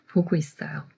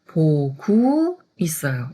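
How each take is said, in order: First: The syllable gu is soft and flowing. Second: The syllable gu is loud and emphasized. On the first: The speaker calls it right. "그냥 부드럽게 그냥 물 흘러가듯이" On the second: The speaker calls it wrong. "구자를 굳이 강조해서 크게 말할 필요가 없어요"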